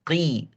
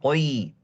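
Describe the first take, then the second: First: The q is said light, with a thin vowel. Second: The q is said heavy, with a dark vowel. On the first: The speaker calls it right. "yang kasrah, yang level, yang paling rendah" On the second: The speaker calls it wrong. "Jangan qoi"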